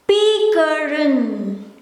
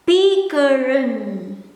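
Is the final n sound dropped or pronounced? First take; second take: pronounced; pronounced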